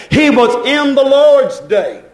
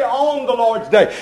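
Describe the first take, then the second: First: "in" hit hard in a slow, raised line; stress on IN. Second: Said in the usual way. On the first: Shown as a demonstration. Preacher correcting the usual wording, "in" stressed firmly. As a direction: correct it by punching the word "in". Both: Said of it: "we say, on the Lord's day".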